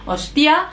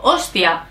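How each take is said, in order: First: "hostia" with the final A lifted; stress on final A. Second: "hostia" with the first O stressed, then falling. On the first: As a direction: push the last A of "hostia" upward. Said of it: "el acento está en la A". («hostia» con el acento en la A final) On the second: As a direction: hit the O in "hostia". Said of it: "o en la O". («hostia» con el acento en la O) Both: Shown as a demonstration.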